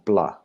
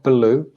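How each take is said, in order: First: The b and l blend into one sound. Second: The b and l are split by a vowel. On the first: The speaker calls it right. "but it's one sound" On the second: The speaker calls it wrong. "Not blue"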